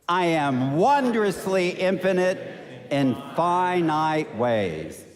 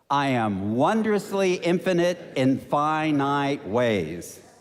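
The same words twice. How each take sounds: First: It is said with strong, zealous energy. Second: It is said in a calm, ordinary way.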